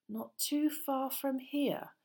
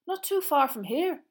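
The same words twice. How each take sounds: First: Slow, high, meaningful echo; significant repeat. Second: High, loud, excited schoolboy. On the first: Ron repeats it for Harry, slow and significant. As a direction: repeat it slowly, weighted with hidden meaning. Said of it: "Ron repeated, looking significantly". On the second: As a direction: share the news with loud excitement. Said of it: "who looked excited". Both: Acted.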